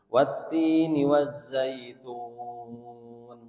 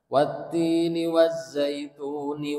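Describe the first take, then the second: First: The phrase stops with a long-held final vowel. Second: The phrase flows on with a short vowel. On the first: The reader stops at the end of the verse. "itu mad arid lis sukun sampai lima harokat" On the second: The reader joins this verse to the next. "Wazaitunnya tetap dua harokat karena kalau dibaca wa wasol"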